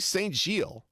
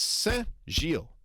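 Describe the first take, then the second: First: It is said with English sounds, not nasal. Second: It uses an 'en'-like nasal vowel. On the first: "Just do it English" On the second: "It's the E, the En nasal, not the O N nasal"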